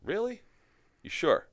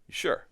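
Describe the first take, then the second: First: High, unbelieving "Really?"; mock disbelief, pitched up; doubtful surprise. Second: Said in the usual way. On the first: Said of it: "And I'm like". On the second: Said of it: "I'm like".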